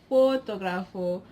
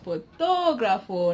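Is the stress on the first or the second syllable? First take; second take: first; second. First: The stress is on the first syllable. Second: The stress is on the second syllable. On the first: The speaker calls it wrong. "instead of like for" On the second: The speaker calls it right. "we place stress on the, you know, to"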